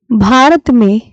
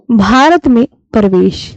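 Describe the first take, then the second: First: Said in the usual way. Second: Slow dictation. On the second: Shown as a demonstration. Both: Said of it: "तो आप बोलोगे".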